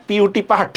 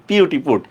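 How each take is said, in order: First: "পাট" with the vowel of cup; mistaken pronunciation. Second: "পুট" with a rounded oo vowel; correct pronunciation. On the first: Teacher testing class with false rhyme, mistaken pronunciation. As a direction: spell "পিইউটি", then say "পাট" to rhyme with but. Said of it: "নাকি পিইউটি পুট". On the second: Teacher correcting the false rhyme for class, correct pronunciation. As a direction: spell "পিইউটি", then say "পুট" with oo as in foot. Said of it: "দুইটার উচ্চারণ নিশ্চয়ই কি". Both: Shown as a demonstration.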